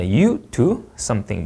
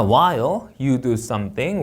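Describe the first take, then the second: First: SOMETHING dropping at the end; finished sentence, SOMETHING falling; falling intonation. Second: Slow, SOMETHING lifted at the end; unfinished clause, SOMETHING going up; rising intonation. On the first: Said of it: "문장 끝나면 내려 읽습니다". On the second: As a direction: raise SOMETHING as if more follows. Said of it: "올려 읽고요". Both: Shown as a demonstration.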